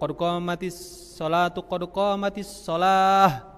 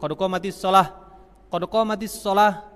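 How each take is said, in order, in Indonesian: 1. Kedua frasa disambung dalam satu napas, dihubungkan dengan 'tu'. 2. Jeda napas memisahkan kedua frasa, tanpa 'tu'. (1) "disambung satu nafas, boleh itu pakai tu" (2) "Kalau hanya nafasnya dibagi-bagi"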